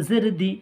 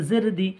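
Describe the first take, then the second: No difference in how they are said.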